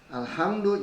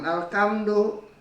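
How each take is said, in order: First: The middle consonant is a breathy h sound. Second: The middle consonant is a hard k sound. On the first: The speaker calls it right. "Alhamdu jangan alkamdu" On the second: The speaker calls it wrong. "jangan alkamdu"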